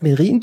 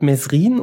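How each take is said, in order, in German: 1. Vor dem r ist kein s-Laut zu hören. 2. Vor dem r ist ein s-Laut zu hören. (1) "das heißt Merin, du Depp" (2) "da sagt irgendjemand Mesrin und er verbessert den"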